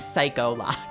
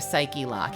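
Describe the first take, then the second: First: The first part ends in an 'oh' sound. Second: The first part ends in an 'ee' sound. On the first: The speaker calls it wrong. "He's saying Psycho Lock, because he heard it wrong" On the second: The speaker calls it right. "it's usually Psychlock or Psyche Lock"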